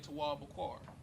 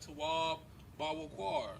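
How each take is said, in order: First: The second word has two syllables. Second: The second word has three syllables. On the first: "it's just just cutting out a syllable" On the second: "like people say Tawab Bawakwar"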